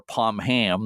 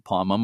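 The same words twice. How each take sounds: First: Pomham said pom-HAM, h sounded; spelling pronunciation. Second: Pomham said POM-um, silent h; reduced pronunciation. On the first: Host giving the debated alternative name, Pomham as pom-HAM. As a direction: say Pomham as POM-HAM with a full second syllable. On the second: Host showing listeners the debated lighthouse name, Pomham as POM-um. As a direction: say Pomham as POM-um, weak second syllable. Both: Shown as a demonstration. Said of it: "debate on how to pronounce it".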